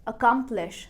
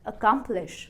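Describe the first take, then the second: Both takes have the same delivery.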